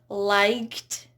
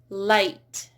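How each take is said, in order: First: A G sound is pronounced before the T. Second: No G sound is pronounced before the T. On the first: The speaker calls it wrong. "It's not liked" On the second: The speaker calls it right. "Notice how these are all silent G H"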